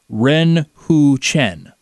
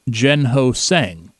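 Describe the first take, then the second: First: The name starts with an R sound. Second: The name starts with a J sound. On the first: The speaker calls it right. "It is Ren Hu Chen" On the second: The speaker calls it wrong. "It is not Jen Ho Sang"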